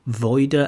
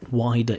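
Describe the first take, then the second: First: The first vowel sounds like 'oy'. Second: The first vowel sounds like 'eye'. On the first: The speaker calls it wrong. "initially I hear v- voider, voider" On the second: The speaker calls it right. "from context, wider area"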